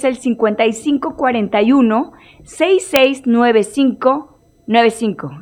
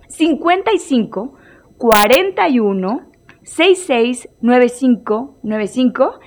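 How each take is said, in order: First: The number is said fast. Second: The number is said slowly.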